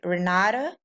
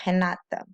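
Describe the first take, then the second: First: It begins with an English R sound. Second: It begins with an H-like sound. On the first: The speaker calls it wrong. "people pronounce my name here Renata" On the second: The speaker calls it right. "the right way to pronounce my my name in Portuguese is Renata"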